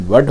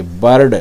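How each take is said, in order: First: वर्ड as British "bird", R silent; correct British bird. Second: बर्ड with a clearly tapped R before D; mispronounced bird. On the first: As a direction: drop the R in वर्ड, leaving vowel then D. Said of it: "इसका सही pronunciation". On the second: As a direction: say बर्ड with the R sounded. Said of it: "बर्ड, ये गलत है". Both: Shown as a demonstration.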